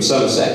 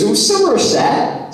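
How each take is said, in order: First: Said in the usual way. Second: High, slow mock Somerset accent on "Somerset". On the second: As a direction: imitate Somerset being said back in a put-on West Country accent. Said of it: "always in that accent".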